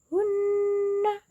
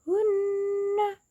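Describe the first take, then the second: The two takes are said the same way.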